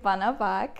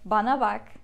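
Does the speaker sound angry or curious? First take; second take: curious; angry. First: It is said in a curious way. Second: It is said in an angry way.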